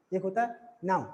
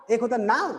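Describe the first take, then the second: First: Now said flat and falling; right version for the class, now falling. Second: Now with a rising tune; wrong version for the class, now rising. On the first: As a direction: let now drop, a full stop. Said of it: "normally बता दे रहा हूँ". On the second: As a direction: lift the pitch up on now. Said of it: "ऐसा तो नहीं". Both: Shown as a demonstration.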